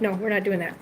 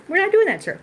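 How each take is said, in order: First: Low, softer no to the cat; low firm scolding. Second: Pitched way up, sing-song telling-off; high mock-indignant scolding. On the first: Telling the cat off for the closet, low and firm. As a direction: calmly shut down the cat's plan. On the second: Scolding the cat in the closet, high mock indignation. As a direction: raise the voice high in mock outrage. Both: Real, not acted.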